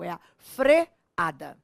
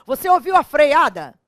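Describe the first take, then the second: First: Freada said fre-ada, no diphthong, slow; correct freada. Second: Freada said as frei-ada with an added ei, loud and high; mock carioca freada. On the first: Teacher correcting the word calmly. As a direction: stress the plain e in freada. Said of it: "Freada não ouviu, é a freada". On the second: Teacher mimicking the carioca error, loud and mocking. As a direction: exaggerate the wrong frei-ada. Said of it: "Fala assim". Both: Shown as a demonstration.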